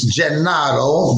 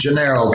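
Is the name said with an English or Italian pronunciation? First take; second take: Italian; English. First: The name is said with an Italian pronunciation. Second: The name is said with an English pronunciation. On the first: This is how it is said in Naples. "In Italian, in Di Napoli, it's Gennaro" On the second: This is how everyone else says it. "but it's Jumpin' Gennaro to everybody else"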